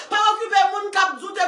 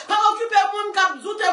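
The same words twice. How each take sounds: The two takes are said the same way.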